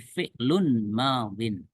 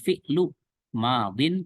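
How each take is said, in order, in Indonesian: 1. Kata pertama berakhir dengan bunyi n. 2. Kata pertama berakhir tanpa bunyi n. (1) "tapi fi'lun madin" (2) "bukan fi'lu madin"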